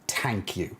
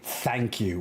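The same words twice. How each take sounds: First: Thank begins with a plain t sound. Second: Thank begins with a th sound. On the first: "We say thank you. ... Irish people don't say the H after a T" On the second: "we normally don't say thank you"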